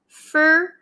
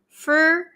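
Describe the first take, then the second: The two takes are said the same way.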